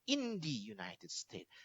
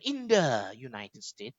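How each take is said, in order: First: The word 'the' is pronounced 'thee'. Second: The word 'the' is pronounced 'thuh'. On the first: The speaker calls it right. "tapi cara membacanya" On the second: The speaker calls it wrong. "Cara membacanya bukan"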